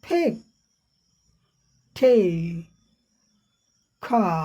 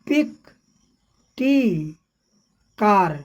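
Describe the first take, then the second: First: The first consonants have a strong puff of air. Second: The first consonants have no strong puff of air. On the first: The speaker calls it right. "सही जब British accent में करेंगे तो हो जाएगा फेक" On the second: The speaker calls it wrong. "हम लोग पिक पढ़ देते हैं"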